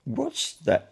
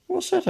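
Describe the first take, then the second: First: High, disbelieving repeat; flabbergasted, higher-pitched query; incredulous echo. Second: Very high, puzzled little question; high-voiced, unknowing query; innocent question. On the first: A narrator's reading. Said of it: "repeated the policeman". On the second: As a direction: ask it innocently, high in pitch.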